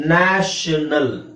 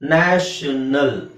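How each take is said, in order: The two takes are said the same way.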